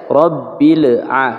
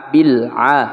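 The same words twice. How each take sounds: First: Rabbil with a bouncing echo on the b; slow Rabbil a, the b wrongly bounced. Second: Bil a with a smooth b and no bounce; correct bil. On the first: Teacher showing students the faulty Rabbil. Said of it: "Tidak dibaca". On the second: Teacher showing students the correct bil a. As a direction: say bil a cleanly. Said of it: "tapi bil a". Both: Shown as a demonstration.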